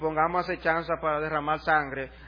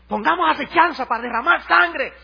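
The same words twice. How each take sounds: First: It is read in a flat, unexcited way. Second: It is read in a lively, exciting way. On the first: The speaker calls it wrong. "no lo lea así" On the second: The speaker calls it right. "Pónselo emocionante"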